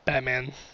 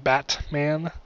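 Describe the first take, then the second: First: The T is replaced by a glottal stop. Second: The T sound is fully pronounced. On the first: "if you're just talking regularly, it's Batman" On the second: "so it would actually be Batman"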